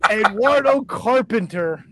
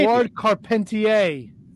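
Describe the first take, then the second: First: The surname is said like English 'carpenter'. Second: The surname is said in a French style. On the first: The speaker calls it wrong. "Did you hear him fucking just barrel through that?" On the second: The speaker calls it right. "It's Canadian"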